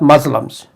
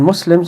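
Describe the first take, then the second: First: The word is said with English sounds. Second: The word is said with Arabic sounds. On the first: The speaker calls it wrong. "not Muslims" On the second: The speaker calls it right. "Muslims are not Muslims"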